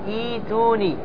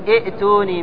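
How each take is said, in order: First: A long i vowel flows straight into the t. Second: A glottal stop is heard before the t. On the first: The speaker calls it right. "تقول إيتوني" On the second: The speaker calls it wrong. "لا تقول إئتوني"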